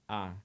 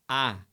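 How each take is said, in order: First: The vowel is said with the mouth barely open. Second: The vowel is said with the mouth wide open. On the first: The speaker calls it wrong. "eu não posso falar A" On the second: The speaker calls it right. "eu tenho que falar A, eu tenho que abrir a boca"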